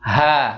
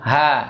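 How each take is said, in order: The two takes are said the same way.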